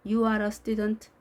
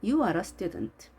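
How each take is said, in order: First: "You are a student" held on an even pitch; monotone demo of "You are a student"; flat, wrong intonation. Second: "You are a student" with pitch swinging up and falling at the end; contoured model reading of "You are a student"; deliberate highs and lows. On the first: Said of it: "아닌 상태이죠". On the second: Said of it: "이렇게 의도적으로 높낮이를 주면서". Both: Shown as a demonstration.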